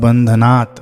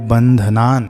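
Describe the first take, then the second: First: The word ends with a 't' sound. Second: The word ends with an 'n' sound. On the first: The speaker calls it wrong. "कई लोग पढ़ते हैं बंधनात्" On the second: The speaker calls it right. "आपको ध्यान देना है बंधनान"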